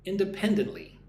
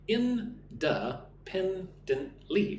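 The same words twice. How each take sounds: First: "Independently." with the third syllable PEN punched; teacher stressing PEN in "Independently.". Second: Slow, high, stretched "Independently."; teacher modelling "Independently." slowly for the class to repeat; model for repeating. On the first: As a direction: hit PEN in "Independently." hard. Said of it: "Put the emphasis on the third syllable". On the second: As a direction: draw out "Independently." five syllables for students to copy. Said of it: "Listen and repeat". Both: Shown as a demonstration.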